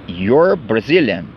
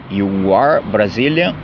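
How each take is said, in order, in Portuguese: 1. 'You are' é contraído em uma única sílaba. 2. 'You are' é falado como duas palavras completas.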